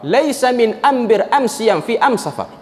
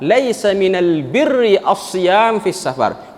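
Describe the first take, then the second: First: Slow Huzail Arabic, "ambir", "am siam", "am safar" with m for l; answer in their dialect. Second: "minal birri" with l kept and r held, "as-siyam" with doubled s; very slow formal recitation, stretched "as-siyam"; standard Fusha Arabic. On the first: Retold or imitated. Prophet answering the tribesmen, in their own "am" dialect. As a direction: say each "al" article as "am", unhurried. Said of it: "Nabi jawab ikut dialek dia orang". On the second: Shown as a demonstration. Teacher restating the Prophet's answer, in slow standard Arabic "minal birri".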